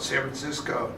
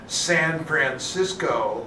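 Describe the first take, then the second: First: The name is squeezed into a short reduced form. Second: The name is said in full with every syllable. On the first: The speaker is a native of the city. "if you're a native, you call it San Francisco, which is sort of S A M P X K O" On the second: The speaker is not a native of the city. "You couldn't possibly say San Francisco over and over again"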